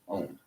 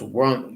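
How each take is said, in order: First: It is said like 'own' without a w. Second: It is said like 'won' with a w.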